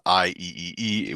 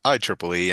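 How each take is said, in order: First: Each letter is said separately, four letters. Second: The three E's are said as 'triple E'. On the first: The speaker calls it wrong. "that's not I E E E" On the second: The speaker calls it right. "We pronounce it I triple E"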